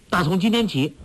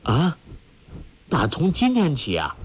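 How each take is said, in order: First: Higher-pitched, decided reply; raised-pitch resolute answer; firm confirmation. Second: Taken-aback echoed question; startled "ah?", then query it in surprise; astonished questioning; surprised. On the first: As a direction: confirm it without hesitation. Firm answer to the surprised question. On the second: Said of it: "郭靖奇道". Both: A narrator's reading.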